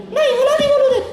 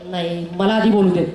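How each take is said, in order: First: Much higher bossy echo; copying puppet. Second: Said in the usual way. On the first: Acted. The puppet fights to talk first in a much higher voice. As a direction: demand to speak first, puppet voice.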